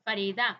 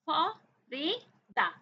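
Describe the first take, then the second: First: Said in the usual way. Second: Farida in three slow beats, फ, री, दा; syllable by syllable. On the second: Shown as a demonstration. Teacher helping children count syllables, syllable by syllable. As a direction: split Farida with a pause after each syllable. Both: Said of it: "आपने count किए कितने syllable".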